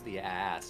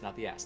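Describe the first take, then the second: First: The two A vowels are said separately. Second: The two A vowels merge into one. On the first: The speaker calls it right. "you have to separate both uh, both uh, a vowels" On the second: The speaker calls it wrong.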